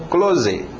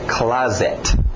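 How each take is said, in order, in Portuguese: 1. É dita com pronúncia do português brasileiro. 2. É dita com pronúncia inglesa. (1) "se pegar essa palavra e pedir para um brasileiro ler, provavelmente ele vai dizer" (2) "É closet"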